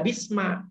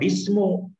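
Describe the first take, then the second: First: The word ends in an a vowel. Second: The word ends in an u vowel. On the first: "tidak boleh dibaca bisma" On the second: "Tidak boleh dibaca bismu"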